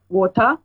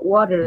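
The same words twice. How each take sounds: First: It is said in a British accent. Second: It is said in an American accent.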